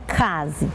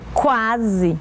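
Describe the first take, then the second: First: The word begins with a plain 'k' sound. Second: The word begins with a 'kw' sound. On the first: The speaker calls it wrong. "não é case" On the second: The speaker calls it right. "olha só a pronúncia"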